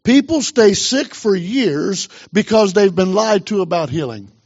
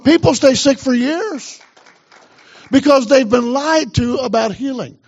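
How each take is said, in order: First: Said in the usual way. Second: Higher, insistent repeat; emphatic preaching. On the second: Real, not acted. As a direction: drive the point home to the church, pitched up. Repeats it, urging the congregation.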